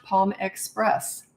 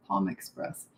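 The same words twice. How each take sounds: First: Slowly sounding out the name; drawn-out puzzled reading. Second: Much lower and softer, to herself; a low, soft second try at Palm Express; quiet low repeat. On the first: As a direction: read the odd username out slowly, word by word. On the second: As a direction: repeat it under your breath, puzzling over it. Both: Shown as a demonstration.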